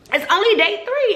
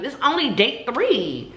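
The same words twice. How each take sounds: First: High, insistent, exasperated repeat; emphatic repeat. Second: Said in the usual way. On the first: Retold or imitated. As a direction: hit "three" hard, exasperated.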